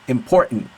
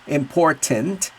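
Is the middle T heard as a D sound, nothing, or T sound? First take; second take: nothing; T sound. First: The middle consonant is dropped entirely. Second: The middle consonant is a clear T sound. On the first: "Or with no T" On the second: "With the T"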